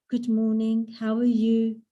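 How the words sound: The greeting sounds pained and weary.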